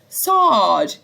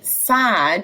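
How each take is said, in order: First: It is said in a Northern Irish accent. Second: It is said in a Southern British accent. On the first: "Owen says sad, as in bath" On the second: "we usually say sad, so we open our mouth mouths and say sad"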